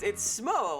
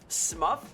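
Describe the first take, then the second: First: The name ends with an 'oh' sound. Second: The name ends with an 'uff' sound. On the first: The speaker calls it right. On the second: The speaker calls it wrong. "pronounced Smuff"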